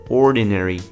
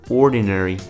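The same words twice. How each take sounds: No difference in how they are said.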